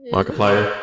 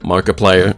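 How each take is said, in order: First: The voice sounds altered by a voice filter. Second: The voice sounds natural, with no effect.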